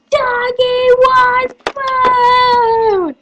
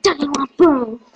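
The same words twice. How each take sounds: First: High, slow, sung-out call; drawn-out catchphrase. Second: Said in the usual way. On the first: Acted. Calling out Doggy One Boom, high and long drawn out. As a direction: stretch each word out high.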